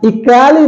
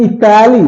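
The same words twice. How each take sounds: First: The ending has a full 'kay' vowel sound. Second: The ending has a full 'kay' vowel sound.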